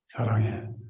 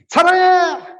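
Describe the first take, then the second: First: It is said warmly and affectionately. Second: It is said harshly, like a declaration of war.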